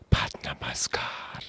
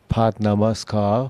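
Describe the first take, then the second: First: It is whispered. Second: It is said in a normal voice.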